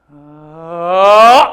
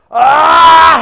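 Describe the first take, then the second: First: It starts soft and grows gradually louder. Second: It is loud from the very start.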